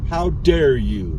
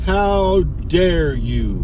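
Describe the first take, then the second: First: Slow, drawn-out mock indignation; mock outrage. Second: Very slow, mock-offended, HOW leaned on; milk the fake offence word by word; hammed-up outrage. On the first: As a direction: play at being offended, stretching each word. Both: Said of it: "I am angry".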